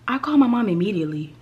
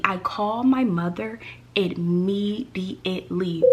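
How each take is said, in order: First: Said in the usual way. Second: "immediately" drawn out syllable by syllable; slow right down and separate each syllable of "immediately"; slow emphatic. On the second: Real, not acted. Storyteller stressing who got called first, slow emphatic "immediately".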